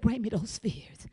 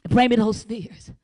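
First: Soft, low unvoiced whisper; God's whisper. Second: Said in the usual way. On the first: God inviting her to hand over her fears, soft whisper. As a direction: breathe it gently like a secret. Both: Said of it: "God said".

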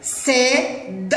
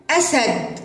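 First: Very slow, drawn out sounding; stretched out for spelling. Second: Said in the usual way. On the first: Shown as a demonstration. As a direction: draw out أسد slowly, no long vowel. (نطق أسد ببطء) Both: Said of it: "هيا للكلمة التالية".

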